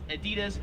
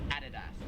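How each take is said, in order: First: It is said with an American pronunciation. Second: It is said with an Australian pronunciation. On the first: "In America, we would pronounce this" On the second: "here in Australia"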